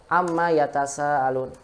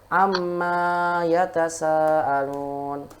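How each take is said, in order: First: The vowel after the m is short. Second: The vowel after the m is drawn out long. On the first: It asks what they are questioning each other about. "Ini mimnya pendek" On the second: It refers to the things they ask each other about. "Tapi kalau umat panjangkan"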